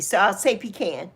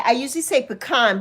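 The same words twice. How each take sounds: First: "pecan" said PEE-can. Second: "pecan" said puh-KAHN. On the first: Avoiding a roasting from viewers, "pecan" as PEE-can. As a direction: say "pecan" with a long EE and a final can. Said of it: "people will roast me". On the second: Streamer giving her usual word, "pecan" as puh-KAHN. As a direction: say "pecan" with an open AH in the stressed last syllable. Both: Shown as a demonstration.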